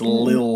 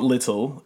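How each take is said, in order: First: The word is said with one syllable. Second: The word is said with two syllables. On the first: The speaker calls it right. "It's Lil" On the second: The speaker calls it wrong. "It's not little"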